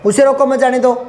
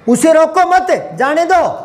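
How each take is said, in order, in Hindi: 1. पूरा वाक्य बिना रुके एक साथ चलता है। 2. विराम 'mat' के ठीक बाद आता है। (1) "मैं यहां रुका ही नहीं था, गाड़ी सी चला दी" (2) "भेजना है"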